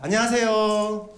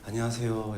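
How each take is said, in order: First: The greeting sounds bright and lively. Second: The greeting sounds weak and lifeless.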